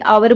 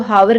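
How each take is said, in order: First: The word starts with a vowel, no h. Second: The word starts with an h sound. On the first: The speaker calls it right. "आवर बोलते हैं" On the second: The speaker calls it wrong. "इसको हावर नहीं बोलते"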